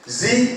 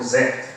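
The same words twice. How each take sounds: First: The letter is said with an American accent. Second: The letter is said with a British accent. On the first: "Z in America" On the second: "British, they call Z"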